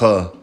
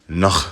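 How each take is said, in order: First: The word is said with its full ending. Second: The word is said with its ending dropped. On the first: "it's really on uh, Noah" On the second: "you're gonna drop those letters, which makes it um Noh"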